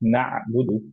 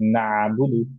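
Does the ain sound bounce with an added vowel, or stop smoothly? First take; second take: smooth; bounced. First: The ain stops smoothly without an added vowel. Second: The ain bounces with a small added vowel. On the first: The speaker calls it right. "কিন্তু হবে হচ্ছে না'বুদু" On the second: The speaker calls it wrong. "একটা কলকলার মতো, বা হচ্ছে একটা আইনের উপরে আহ, ফাতহা আছে এরকম সাউন্ড চলে আসবে"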